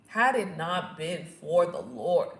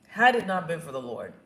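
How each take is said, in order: First: "had it not been for the Lord" slow and deliberate; emphatic repetition. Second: Said in the usual way. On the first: Real, not acted. Repeats the phrase for emphasis.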